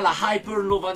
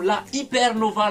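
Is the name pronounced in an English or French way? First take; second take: English; French. First: The name is pronounced the English way. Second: The name is pronounced the French way. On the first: "plus à la anglaise" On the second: "plus à la française"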